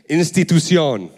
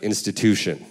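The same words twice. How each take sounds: First: The word said in Spanish pronunciation; Spanish-accented "institución". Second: Said in the usual way. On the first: Shown as a demonstration. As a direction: say institución with a Spanish accent, stressed final syllable. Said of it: "with a different accent". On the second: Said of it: "And I'd be like".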